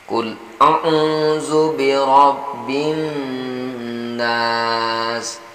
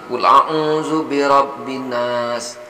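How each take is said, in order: First: The doubled n is held with nasal hum. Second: The doubled n is passed over quickly. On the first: The speaker calls it right. "Jadi n-nya ditekan, didengungkan" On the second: The speaker calls it wrong. "jangan langsung"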